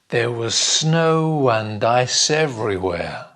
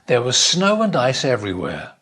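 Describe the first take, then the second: First: The sentence is spoken at a slow pace. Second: The sentence is spoken at a faster pace. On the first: "Try it slowly" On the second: "And then a bit faster"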